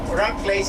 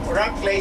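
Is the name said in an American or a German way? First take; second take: American; American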